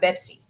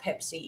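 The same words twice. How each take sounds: First: The word starts with a B sound. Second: The word starts with a P sound. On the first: "they have Pepsi" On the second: "they don't have Pepsi in Arabic countries"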